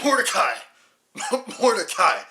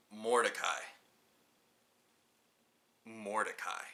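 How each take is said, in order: First: Loud laughing yell of the name; laughing shout. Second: Said in the usual way. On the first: Acted. Mocking the film title, laughing.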